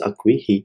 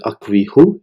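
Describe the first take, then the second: First: The word ends with the vowel i. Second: The word ends with the vowel u. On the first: The speaker calls it right. "it's Akwi he" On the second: The speaker calls it wrong. "it's not Akwi hu"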